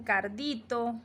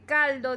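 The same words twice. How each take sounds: First: Cardito, informal R. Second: Said in the usual way. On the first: Shown as a demonstration. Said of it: "dicen cardito". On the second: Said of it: "en vez de decir".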